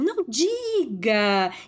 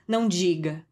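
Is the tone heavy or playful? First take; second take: playful; heavy. First: It is said lightly, with playful ironic variation. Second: It is said heavily, with a serious weight. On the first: The remark is an ironic joke. "com essa variação" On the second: The remark is meant seriously. "com um peso que não é o que ela tá falando"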